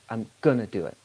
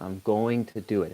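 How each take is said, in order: First: 'Going to' is squeezed into one short 'gonna'. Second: Both words of 'going to' are said fully. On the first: The speech is informal. "the majority of the time, even when we do emphasize, we still say gonna" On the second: The situation is more formal. "if you're speaking slower or in a more formal situation in spoken English, you can say going to"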